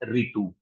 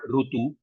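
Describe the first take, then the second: First: The first vowel is an 'ee' sound. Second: The first vowel is an 'oo' sound. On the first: This is how it is said in the north. "the North Indian languages people are calling it as Ritu" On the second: This is how it is said in the south. "Most of the South Indian languages we call Rutu"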